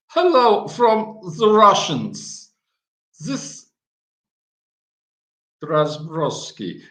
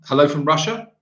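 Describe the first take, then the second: First: Slow, hammed-up Russian accent, a bit louder; mock Russian accent. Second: Said in the usual way. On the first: Shown as a demonstration. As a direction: try a clumsy Russian accent. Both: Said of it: "I have to work on my Russian accent".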